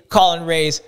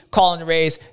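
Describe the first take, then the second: No difference in how they are said.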